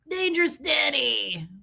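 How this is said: It is said in an exaggerated put-on voice.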